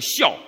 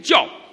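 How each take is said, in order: First: The word begins with an 'x' sound. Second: The word begins with a 'j' sound. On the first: This is how northerners tend to say it. "我们北方人容易把它读成孝" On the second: This is the dictionary reading. "那标音注音读教啊"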